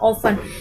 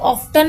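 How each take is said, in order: First: The t sound is silent. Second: The t sound is pronounced. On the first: The speaker calls it right. "टी इसमें silent होता है" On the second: The speaker calls it wrong. "इसको कई लोग ऑफ्टन भी पढ़ते हैं"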